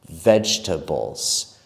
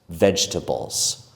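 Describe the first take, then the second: First: The word is said with three syllables. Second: The word is said with three syllables.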